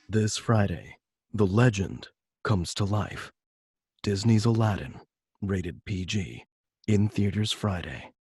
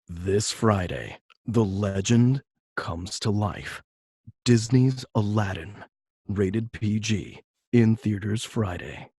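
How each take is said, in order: First: It is read with less energy. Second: It is read bigger, with more energy.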